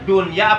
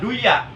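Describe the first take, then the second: First: The n sound is pronounced clearly before y. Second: The n sound is merged into the y. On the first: The speaker calls it right. "yang benar ini ... Ijhar" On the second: The speaker calls it wrong. "kalau dibaca duya salah"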